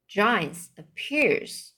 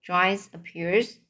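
First: Giants appears said slowly again; slow it down the second time; slower repeat. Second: Said in the usual way. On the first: Shown as a demonstration. Reader repeating giants appears slowly.

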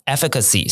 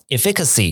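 First: "efficacy" stressed on the opening "EF"; first-syllable stress. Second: "efficacy" with stress moved to the second syllable; demonstrated wrong stress "ef-FI-cacy"; misplaced stress. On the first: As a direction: hit the start of "efficacy": EF-i-ka-see. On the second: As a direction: say "efficacy" as "eh-FIK-a-see". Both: Shown as a demonstration. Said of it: "如果你把重音放错".

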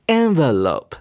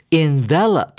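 First: "envelope" as noun, EN-vuh-lope; noun pronunciation. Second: "envelope" as verb, in-VEL-up; stress on second syllable. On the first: Teacher reads the noun form, "envelope" stressed EN-vuh-lope. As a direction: hit the first syllable of "envelope", ending in a long "lope". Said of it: "字尾加了E之后，". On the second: Teacher reads the verb form, "envelope" stressed in-VEL-up. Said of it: "重音在第二音節". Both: Shown as a demonstration.

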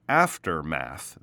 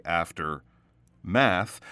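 First: "aftermath," joined as one word, a little slow. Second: "after math" broken into two words with a pause; split word. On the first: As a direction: say "aftermath," smoothly as a single word. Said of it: "but aftermath". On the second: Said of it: "you don't want to say after math". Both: Shown as a demonstration.

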